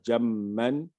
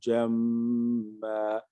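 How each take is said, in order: First: The word ends with a short vowel and n. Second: The word ends on a lengthened a vowel. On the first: The reading continues without stopping. "au lieu de dire jamman" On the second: The reader stops at the end of the verse. "si je m'arrête sur ce verset-là, je dirais"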